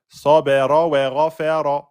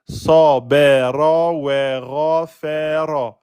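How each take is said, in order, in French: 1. La phrase est dite vite, avec fluidité. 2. La phrase est dite lentement, avec soin. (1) "quand vous êtes à l'aise" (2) "si vous allez un peu plus doucement"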